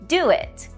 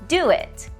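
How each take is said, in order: The two takes are said the same way.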